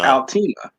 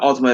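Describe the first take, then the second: First: The first syllable sounds like 'al'. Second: The first syllable sounds like 'ul'. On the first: The speaker calls it right. "that's how it's spelled" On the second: The speaker calls it wrong. "everybody calls it the Ultima"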